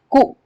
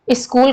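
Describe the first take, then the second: First: कू for स्कूल, first and last sounds dropped; स्कूल cut down to just कू; articulation error. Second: Said in the usual way. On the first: Shown as a demonstration. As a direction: say कू, leaving off the s and the l. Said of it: "ल और सा छोड़ दिया गया". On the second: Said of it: "स्कूल ना कह करके".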